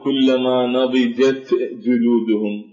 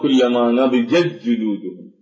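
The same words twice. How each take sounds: First: The t sound is pronounced before the j. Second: The t sound is merged into the j. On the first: The speaker calls it wrong. "لا نقول كلما نضجت جلودهم يكون هنا ثقل على اللسان" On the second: The speaker calls it right. "فلا يبقى صوت للتاء"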